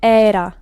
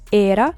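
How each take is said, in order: First: The first vowel is an open E. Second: The first vowel is a closed E. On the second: "Notice the um, closeness of the E"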